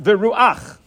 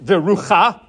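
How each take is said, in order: First: The a vowel comes before the final ch sound. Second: The a vowel comes after the final ch sound. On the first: The speaker calls it right. "it's pronounced viruach" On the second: The speaker calls it wrong. "the word viruach is not pronounced virucha"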